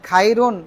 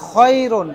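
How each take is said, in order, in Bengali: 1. kh-এর পরের স্বরটি প্রসারিত ও বিবৃত। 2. kh-এর পরের স্বরটি গোলাকার ও ভারী। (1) "এটা খাইরুন না খয়রুন?"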